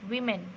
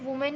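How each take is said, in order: First: The first syllable sounds like 'wih'. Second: The first syllable sounds like 'woo'. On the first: The speaker calls it right. "Correct pronunciation विमेन होगा" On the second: The speaker calls it wrong. "बहुत सारे बच्चे वुमेन ही पढ़ते हैं"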